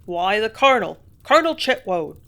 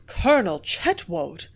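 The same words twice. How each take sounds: First: Much louder, eager gossip's rush; excitedly. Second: "Colonel Chetwoad!" slow and louder, stunned; stunned slow exclamation of "Colonel Chetwoad!"; gasped. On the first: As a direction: blurt out the news excitedly. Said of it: "the man answered excitedly". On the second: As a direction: let "Colonel Chetwoad!" drop out in shock. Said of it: "I gasped". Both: A narrator's reading.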